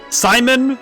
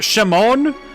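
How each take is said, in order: First: The name begins with a plain s sound. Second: The name begins with a sh sound. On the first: "It's a silent H" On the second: "they go Shimon"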